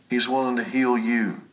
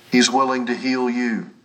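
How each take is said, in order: Both takes have the same delivery.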